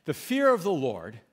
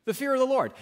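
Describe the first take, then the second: First: Said in the usual way. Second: "The fear of the Lord" restated higher, each word weighted; emphatic repeat. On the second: Shown as a demonstration. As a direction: lift the pitch and drive the phrase home.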